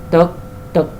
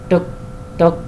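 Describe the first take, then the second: Both takes have the same delivery.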